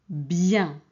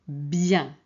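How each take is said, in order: Both takes have the same delivery.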